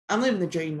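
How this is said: It is said sincerely.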